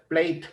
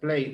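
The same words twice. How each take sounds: First: The final consonant sounds hard and strong. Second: The final consonant sounds soft and light. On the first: The speaker calls it wrong. "no se pronuncia plate" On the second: The speaker calls it right. "es un poco más suave el sonido"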